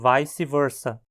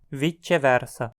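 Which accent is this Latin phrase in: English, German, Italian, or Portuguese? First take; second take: English; Italian. First: English-style, with diphthongized vowels. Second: Italian-style, with the c sounding like ch. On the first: "numa área anglófona" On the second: "na região afetada pelo italiano, pronunciada"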